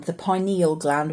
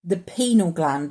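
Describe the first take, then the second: First: "pineal" said as PIE-nee-ul; alternative pronunciation. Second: "pineal" said as PEE-nul; alternative pronunciation. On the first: Vlogger offering another way to pronounce it, "pineal" as PIE-nee-ul. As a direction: say "pineal" with an eye vowel first: PIE-nee-ul. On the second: Vlogger offering one way to pronounce it, "pineal" as PEE-nul. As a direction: say "pineal" with a long ee, two syllables: PEE-nul. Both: Shown as a demonstration. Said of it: "whichever way you pronounce it".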